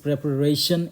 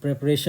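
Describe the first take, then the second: First: Slow preparation, every syllable clear: pre-pa-ra-tion; correct pronunciation. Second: Preparation said as represhan, run together; wrong way. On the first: Teacher modelling the correct preparation. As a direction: spell out preparation slowly. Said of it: "that is preparation". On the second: Teacher showing a common mistake. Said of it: "नहीं होता है". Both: Shown as a demonstration.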